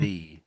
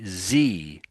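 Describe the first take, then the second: First: The word begins with a soft th sound. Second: The word begins with a buzzing z sound. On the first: The speaker calls it right. "rather than" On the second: The speaker calls it wrong. "Germans end up saying some of the time anyway, Z rather than"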